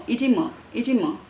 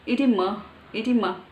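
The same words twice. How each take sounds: No difference in how they are said.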